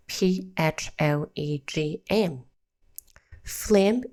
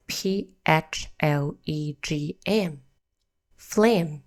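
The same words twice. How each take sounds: The two takes are said the same way.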